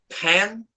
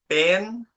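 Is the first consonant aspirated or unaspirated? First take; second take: aspirated; unaspirated. First: The p is said with a puff of air. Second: The p is said without a puff of air. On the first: "Now in English, ... Extra air" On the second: "if I do not pronounce aspiration"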